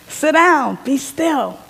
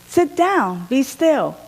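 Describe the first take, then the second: The two takes are said the same way.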